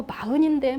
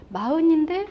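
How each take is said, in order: First: Mildly scornful gossip; disparaging. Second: Raised, rising note of surprise; higher pitch, lifting at the end; impressed surprise. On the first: Speaker mimics badmouthing a forty-year-old, mildly scornful. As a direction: run someone down in passing. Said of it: "막 욕을 했는데". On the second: Speaker discovers the forty-year-old is successful, mildly surprised. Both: Acted.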